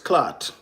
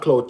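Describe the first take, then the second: First: The vowel sounds like 'ah' in father. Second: The vowel sounds like 'ow' in cow. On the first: The speaker calls it right. "It's clot. Okay? C L A A T" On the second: The speaker calls it wrong. "It's not clout"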